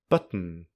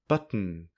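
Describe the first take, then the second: Both takes have the same delivery.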